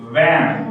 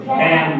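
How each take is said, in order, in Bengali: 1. প্রথম ধ্বনিটি উপরের দাঁত নিচের ঠোঁটে লাগিয়ে উচ্চারিত হয়। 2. প্রথম ধ্বনিটি দুই ঠোঁট দিয়ে উচ্চারিত হয়। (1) "উপরের দাঁতটা নিচের ঠোঁটের সঙ্গে লাগবে।" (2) "আমরা কি বলি? ভ্যান বলি না? এই ভ্যান আজকে থেকে কেউ বলবা না।"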